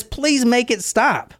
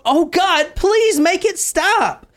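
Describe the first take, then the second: First: Pleading. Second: High, slow, pleading wail; mock hysterical crying. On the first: Retold or imitated. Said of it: "the killer says". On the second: Katie pleading to God mid-attack, high and tearful. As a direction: beg it to stop in a high, slow voice. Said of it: "She's crying hysterically".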